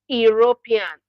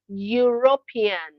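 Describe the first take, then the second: First: It begins with a plain vowel sound. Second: It begins with a y consonant sound. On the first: The speaker calls it wrong. "not European" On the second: The speaker calls it right. "it is pronounced as European"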